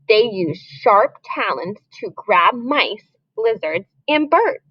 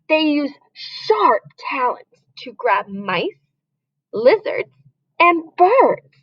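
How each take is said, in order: First: It is read in a plain, neutral voice. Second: It is read with dramatic, intense feeling. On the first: "We just read it once" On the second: "Listen to the change in my voice"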